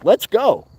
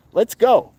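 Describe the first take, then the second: No difference in how they are said.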